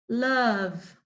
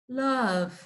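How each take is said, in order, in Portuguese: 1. A vogal soa como 'a'. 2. A vogal soa como 'a'.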